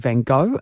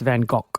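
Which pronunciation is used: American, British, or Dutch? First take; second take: American; Dutch. First: It is said the American English way. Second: It is said the Dutch way. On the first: The speaker calls it wrong. "in the States, they say" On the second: The speaker calls it right. "the Dutch say neither are correct. It's"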